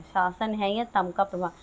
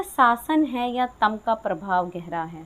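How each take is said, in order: First: Said in the usual way. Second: Slow, measured reading of the verse; slow poem recitation. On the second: Shown as a demonstration. Teacher reciting the poem line slowly to the class. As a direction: read the line out slowly, savouring each word.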